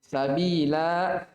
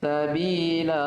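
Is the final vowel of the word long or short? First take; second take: long; short. First: The final vowel is lengthened at a stop. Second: The final vowel is short, running on. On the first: The reciter stops at this word. "Kalau waqaf sabila" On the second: The reciter continues into the next verse. "Tapi kalau lanjut"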